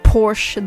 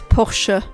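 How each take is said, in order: First: The final E is silent, giving one syllable. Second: The final E is sounded as an extra syllable. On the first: The speaker calls it wrong. "not Porsche" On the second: The speaker calls it right. "The E at the end. It's a German brand, so that the E gets pronounced"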